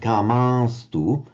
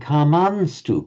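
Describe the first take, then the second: First: The vowel is nasalized without a full N. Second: A full N consonant is clearly pronounced. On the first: "which would be natural for a Hindi speaker to do" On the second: "pronouncing as a full N"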